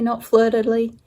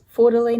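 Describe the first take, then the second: First: "Fleur" said "flur", French-style; French pronunciation. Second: "Fleur" said like "four", flat and English; pun pronunciation. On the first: Stitcher contrasting the proper French "flur" with her pun. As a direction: give "Fleur de Lis" its French "flur" sound. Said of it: "Fleur de Lis, not Fleur de Lis". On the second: Stitcher explaining her punning design name, "Fleur" as "four". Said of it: "because there are four Fleur de Lis". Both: Shown as a demonstration.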